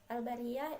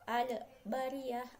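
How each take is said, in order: First: The l is closed cleanly with no added vowel. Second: A short e vowel is added after the l. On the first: The speaker calls it right. "maka harus dibaca dengan jelas" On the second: The speaker calls it wrong. "contoh bacaan yang salah yaitu al-bariyah ... itu jadi ada e-nya"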